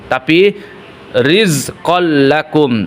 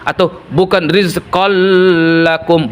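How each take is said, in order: First: The merged sound is quick with no nasal hum. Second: The merged sound is held with a nasal hum. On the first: The speaker calls it right. "dipercepat saja karena tidak didengungkan" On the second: The speaker calls it wrong.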